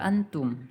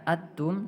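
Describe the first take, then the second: First: The n sound is said fully and clearly. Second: The n sound is left out entirely. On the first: "tidak dibaca juga antum" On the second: "tidak dibaca atum"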